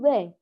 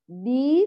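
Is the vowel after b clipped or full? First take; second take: clipped; full. First: The i vowel after b is cut short. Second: The i vowel after b is fully formed. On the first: The speaker calls it wrong. "غير متمة الكسر فيقول ب" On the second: The speaker calls it right. "بإتمام كسرها بخفض الفك ورفع وسط اللسان"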